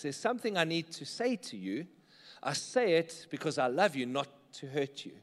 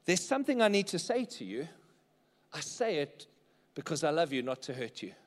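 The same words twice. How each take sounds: First: Sincere repeat. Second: Sincere statement. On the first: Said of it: "how do you use truth and love". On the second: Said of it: "Statement number four is this". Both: Shown as a demonstration.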